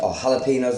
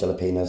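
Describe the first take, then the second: First: The word has the usual Spanish-style pronunciation. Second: The word is pronounced just as it is spelled. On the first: This is how most people say it. "as people call them" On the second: This is the speaker's own way of saying it. "I call them jalapenos because I just read it as I see it"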